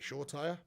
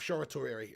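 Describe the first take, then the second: First: The name is said in a shortened two-part form. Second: The name is said in a longer multi-syllable form. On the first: This is the speaker's own habitual way of saying it. The speaker calls it wrong. "but I pronounce it Shortire" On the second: This is how everybody else says it. The speaker calls it right. "I'll call him that"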